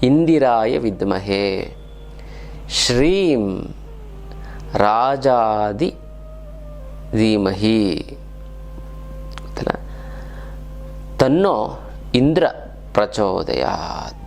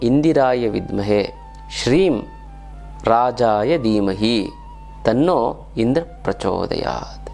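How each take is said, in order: First: It is recited at a very slow pace. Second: It is recited at a slow pace. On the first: "ಈಗ ಇನ್ನೂ slow ಆಗಿ ಹೇಳ್ತೀನಿ" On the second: "ಇವಾಗ ನಿಧಾನಕ್ಕೆ ಹೇಳ್ತೀನಿ"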